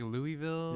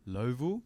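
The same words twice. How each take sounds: First: Louisville said in full, LOO-ee-vil; puzzled LOO-ee-vil, higher, every syllable of Louisville sounded; outsiders' pronunciation. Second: LOWVILLE with the middle syllable swallowed; quoting how locals say Lowville; local pronunciation. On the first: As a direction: say Louisville as spelt, like a puzzled visitor. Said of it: "But we were like". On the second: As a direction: say Lowville as two squashed syllables, LOH-vul. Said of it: "they pronounce it as Lowville". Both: Retold or imitated.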